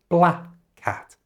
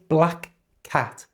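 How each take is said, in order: First: The k at the end of black is dropped. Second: The k at the end of black is pronounced. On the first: The speaker calls it right. "say bla cat" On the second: The speaker calls it wrong.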